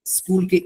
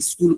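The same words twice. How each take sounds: First: Said in the usual way. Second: "স্কুল" with an i before it, "iskul"; common mispronunciation. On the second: Shown as a demonstration. Teacher shows a common mistake, "স্কুল" mispronounced as "iskul". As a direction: add a short i vowel ahead of "স্কুল". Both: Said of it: "common pronunciation mistake".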